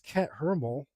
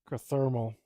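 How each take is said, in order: First: The t and h are said as separate sounds. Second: The t and h merge into one th sound. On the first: The speaker calls it wrong. "I don't think it's cat hermal. ... It can't be like separate" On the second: The speaker calls it right. "A T and an H have to be a th sound"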